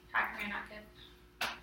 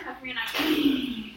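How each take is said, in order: First: Almost hushed, drawn out; tender hushed repeat; very soft, slow concern. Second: Said in the usual way. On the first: Real, not acted. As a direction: coax it out gently. Teacher repeats question very softly.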